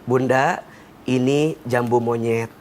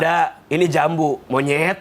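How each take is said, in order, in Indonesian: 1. Tidak ada jeda antara 'jambu' dan 'monyet'. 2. Ada jeda antara 'jambu' dan 'monyet'. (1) "kalimatnya sama, tapi nadanya beda" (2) "Dipisah pakai koma"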